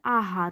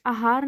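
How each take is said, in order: First: आहार begun with long aa; correct long vowel. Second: आहार begun with short a, "ahaar"; wrong short vowel. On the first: Teacher giving the right form, आहार with long first aa. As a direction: open आहार on a full long aa. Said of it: "आहार होता है". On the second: Teacher showing the misspelling, आहार with short first a. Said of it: "आहार नहीं होता". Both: Shown as a demonstration.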